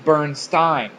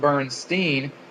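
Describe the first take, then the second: First: The name ends with a 'stain' sound. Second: The name ends with a 'steen' sound. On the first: This is how the spelling would sound it out. "maybe it was" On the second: This is how the family always said it. "We pronounced it Steen Bears"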